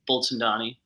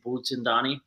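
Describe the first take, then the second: First: The name is said with an American accent. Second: The name is said with an Indian accent. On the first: This is how the name's owner says it. "I say Bulchandani" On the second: This is how people from India say it. "my mom and dad are from India... they might say Bulchandani"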